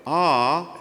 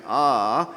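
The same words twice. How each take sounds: First: High note position. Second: Lazy cramped. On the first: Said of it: "feel the position of the high note". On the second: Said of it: "lazy and kinda cramped". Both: Shown as a demonstration.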